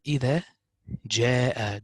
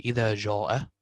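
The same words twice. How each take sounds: First: "إذا جاء" said with thin light vowels; right reading. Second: "إذا جاء" said with a heavy dark alif, "jaw"; wrong reading. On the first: Quran teacher to student, reciting the thin correct way. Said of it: "we say". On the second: Quran teacher to student, showing the heavy wrong reading. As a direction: show the darkened "إذا جاء" as the mistake. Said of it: "Don't say". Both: Shown as a demonstration.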